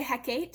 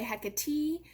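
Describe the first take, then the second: First: "Hecate" in two syllables, ending like Kate; alternative pronunciation. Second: "Hecate" in three syllables, ending in a long ee; alternative pronunciation. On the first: Lecturer showing how some people say Hecate, alternative pronunciation. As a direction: say "Hecate" as HEK-ate, rising. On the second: Lecturer showing how others say Hecate, alternative pronunciation. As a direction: say "Hecate" as HEK-uh-tee. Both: Shown as a demonstration. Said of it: "some people say Hecate".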